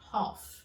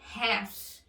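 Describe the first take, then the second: First: It is said with a more closed vowel, British style. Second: It is said with a silent L, American style. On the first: "No inglês britânico... De uma forma mais fechada" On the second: "A pronúncia no inglês americano é half. O L é mudo"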